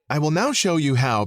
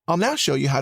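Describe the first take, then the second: First: It sounds stiff and formal, read from a script. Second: It sounds relaxed, friendly and conversational. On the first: The speaker calls it wrong. "You don't say it" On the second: The speaker calls it right. "approachable, conversational, guy next door"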